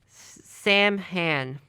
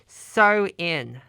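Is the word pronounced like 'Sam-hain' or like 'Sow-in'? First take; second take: Sam-hain; Sow-in. First: The word is sounded out letter by letter. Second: The word sounds like 'sow-in'. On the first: The speaker calls it wrong. "That's probably wrong" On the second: The speaker calls it right. "I found the correct pronunciation"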